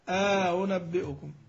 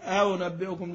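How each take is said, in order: First: A long vowel separates the two hamzas. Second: The two hamzas run together with no inserted vowel. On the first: The speaker calls it right. "مع إدخال الألف الفصل بينهما" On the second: The speaker calls it wrong. "ما تقول على طول آنبئكم، لا"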